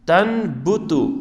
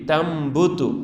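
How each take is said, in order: First: An n sound is said before the b. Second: An m sound is said before the b. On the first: The speaker calls it wrong. "असल था तन बुतु" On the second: The speaker calls it right. "यहाँ हम मीम पढ़ेंगे"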